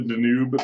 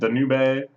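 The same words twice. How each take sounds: First: It is pronounced like an English word. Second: It is pronounced like a Japanese word. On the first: The speaker calls it right. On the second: The speaker calls it wrong.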